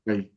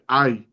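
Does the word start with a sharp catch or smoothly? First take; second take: smoothly; sharp catch. First: It starts smoothly with no glottal catch. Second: It starts with a sharp glottal catch. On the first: "without the glottal stop, it says it goes like this" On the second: "You said it right"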